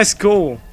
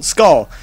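First: "skull" with an oo vowel, like "skool"; mispronounced skull. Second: "skull" with a short open vowel, no oo; corrected skull. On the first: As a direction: say "skull" to rhyme with "school". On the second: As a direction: say "skull" again carefully, open vowel, not "skool". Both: Real, not acted. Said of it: "English is my second language".

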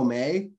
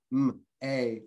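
First: Said in the usual way. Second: "m, a" as two separate sounds; sounded out. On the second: Shown as a demonstration. Teacher wrongly splitting a Chinese syllable, "m, a" sounded out. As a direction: break may apart: "m, a". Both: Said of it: "We can't break up Chinese like that".

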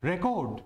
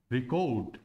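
First: Noun record said RE-kod, with an e; strong 're' opening record, falling after; first-syllable stress. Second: Verb record said ri-KOT, lower; light 'ri', lean on the 'ko' of record; second-syllable stress. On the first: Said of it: "यहां पर जोर किस पे है". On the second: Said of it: "क पर आ रहा है". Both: Shown as a demonstration.

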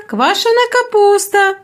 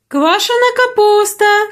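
First: Higher market cry, stress on квашена; repeated hawker cry. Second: Higher, drawn-out market cry on капуста; cabbage hawker calling. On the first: Sauerkraut seller repeats the cry to passing shoppers, higher. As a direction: call it out again, leaning on квашена. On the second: Sauerkraut seller cries wares across the market, high and drawn out. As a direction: sing out Квашена капуста to the crowd. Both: A narrator's reading. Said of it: "гукали тут".

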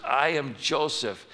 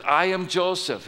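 First: Slow, deliberate reveal; Joseph revealing himself. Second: Higher and a touch louder declaration; Joseph revealing himself. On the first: Joseph telling his brothers who he is, slow and steady. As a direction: say it slowly and plainly. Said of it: "Joseph says to his brothers". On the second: Joseph revealing himself to his brothers, higher and emphatic. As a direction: announce who you are with feeling. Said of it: "what are his first words?". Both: Acted.

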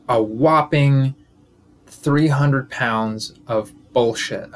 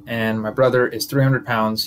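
First: Whopping three hundred pounds, dragged out very slowly; slow emphatic rant. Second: Said in the usual way. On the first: Real, not acted. Comedian roasting his brother, each word slow and heavy.

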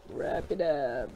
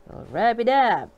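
First: Much softer, lower repeat; quiet. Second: Said in the usual way. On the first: Real, not acted. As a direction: murmur it to yourself. Soft repeat of the line.

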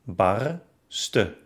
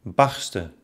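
First: Bar-sten, split by a pause; barsten by syllables. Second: Said in the usual way. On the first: Shown as a demonstration. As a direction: break barsten after the r. (barsten in Silben gesprochen) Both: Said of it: "trenne dann das Wort".

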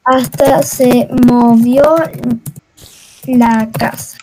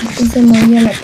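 First: Low, stretched-out syllables; slow, low-pitched deliberate delivery; slow and halting. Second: Low and fast, run together; rapid low-pitched delivery; quick repeat. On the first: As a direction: say it word by word, very slowly and low. Slow first take, then quick repeat. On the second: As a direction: rattle it off low without a break. Quick repeat of slow sentence. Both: Real, not acted.

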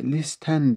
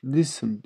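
First: Teacher showing learners how listen is written, spelling pronunciation. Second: "Listen" with a silent T: lissin; correct pronunciation. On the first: English teacher explains the spelling to learners, "listen" with a sounded T. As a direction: say "listen" as spelt, with the T sounded: lis-ten. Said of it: "listen diye yazılır". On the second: English teacher shows learners how it is read, "Listen" without the T. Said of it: "Listen diye okunur arkadaşlar". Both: Shown as a demonstration.

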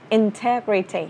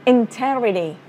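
Both takes have the same delivery.

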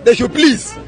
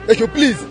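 No difference in how they are said.

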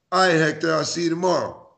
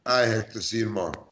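First: Light friendly reading; friendly see-you. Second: Cold curt reading. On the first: Friend reading the text, friendly and easy. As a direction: say it like you're fine with it. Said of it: "Or they said". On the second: Friend reading the same text, sounding miffed. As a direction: lower and softer, clipped off. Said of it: "You know the difference". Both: Shown as a demonstration.

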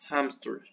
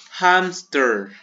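First: Hamster with a Spanish jota and a softer fall; Spanish pronunciation. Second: Hamster said with an English h, louder and higher; English pronunciation. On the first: Teacher contrasts the Spanish form for pupils. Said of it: "en español lleva acento". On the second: Teacher models the English word for pupils. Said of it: "En español se dice igual". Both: Shown as a demonstration.

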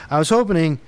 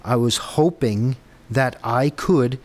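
First: "hoping" said with an extra syllable, "HOPE-uh-ning"; slip on "hoping". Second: "hoping" said slowly in two syllables, "HOPE-ing"; slow down and say "hoping" carefully, without the extra "en"; corrected "hoping". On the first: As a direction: put an extra "en" inside "hoping", as "hopening". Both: Real, not acted. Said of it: "now I can't stop saying it".

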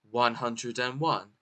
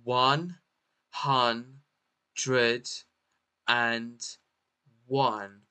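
First: Said in the usual way. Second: "One hun dred and one" with each syllable standing apart. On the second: Shown as a demonstration. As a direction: sound out "One hun dred and one", pausing between pieces. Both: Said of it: "How to pronounce this word?".

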